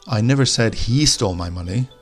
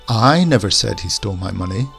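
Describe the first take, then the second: First: The stress falls on the word he. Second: The stress falls on the word I. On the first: Someone stole it, but not necessarily him. "the emphasis on he" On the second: Someone else said it, but not me. "we'll put the emphasis on the I"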